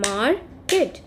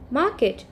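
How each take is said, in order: First: "market" drawn out as mar, ket; split into syllables. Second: Said in the usual way. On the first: Shown as a demonstration. Teacher showing children two syllables, "market" split as mar, ket. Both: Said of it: "if we have two syllables".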